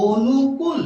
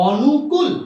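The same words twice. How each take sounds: First: অনুকূল with the first vowel as ও, "onukul"; correct pronunciation. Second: অনুকূল with the first vowel a plain অ, like "awnukul"; অনুকূল as spelled. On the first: Teacher gives the class the correct reading, অনুকূল as "onukul". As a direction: say অনুকূল starting with a rounded ও sound. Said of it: "শুদ্ধ উচ্চারণ হচ্ছে". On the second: Teacher reads the spelling to a class, অনুকূল with open অ. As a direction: read অনুকূল letter by letter, open অ at the start. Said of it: "এটা হওয়ার কথা ছিল". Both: Shown as a demonstration.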